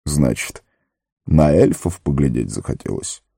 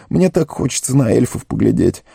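First: Measured wizard with softened threat; mock-menacing. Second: Higher-pitched, yearning plea; pleading gardener. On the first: Gandalf questions Sam about elves, mock-stern. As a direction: question him sternly, without real menace. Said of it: "Грозно, но уже не страшно спросил он". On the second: Sam longs to see elves, pleading. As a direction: wish for it earnestly in a raised voice. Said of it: "взмолился он неожиданно". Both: A narrator's reading.

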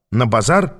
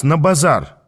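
First: "На базар" with rising questioning end; questioning echo. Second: Said in the usual way. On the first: A narrator's reading. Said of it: "переспросил я". («На базар?» переспрашивая, с подъёмом в конце)

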